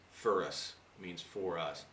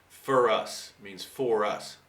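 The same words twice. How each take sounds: First: A quieter, slow restatement of "for us"; softer repeat. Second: Slowly and deliberately, "For us" said twice; slow, clear explanation. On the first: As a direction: say "For us means for us" again softer and slowly, as a quiet aside. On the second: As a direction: say "For us means for us" slowly and a little louder, spelling it out. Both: Shown as a demonstration. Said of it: "this guy speaks with such an accent".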